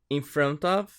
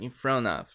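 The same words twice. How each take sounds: First: It is said carefully with the t pronounced. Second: It is said fast with the t dropped.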